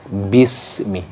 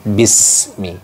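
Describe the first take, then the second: Both takes have the same delivery.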